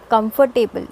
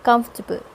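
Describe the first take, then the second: First: Comfortable as kum-fer-TAY-bul; comfortable with a full "table" ending; four-syllable mispronunciation. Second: Comfortable as KUMF-tuh-bul; comfortable squeezed into three syllables; three-syllable pronunciation. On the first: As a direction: sound all four parts of comfortable, with "tay". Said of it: "not comfortable". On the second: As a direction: stress the first part of comfortable, drop the "or". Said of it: "it's comfortable". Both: Shown as a demonstration.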